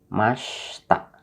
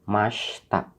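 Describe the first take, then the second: No difference in how they are said.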